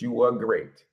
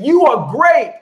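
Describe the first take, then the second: First: It is said flatly, without feeling. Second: It is said with strong feeling and energy. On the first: The speaker does not really believe it. The speaker calls it wrong. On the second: The speaker truly believes it. The speaker calls it right.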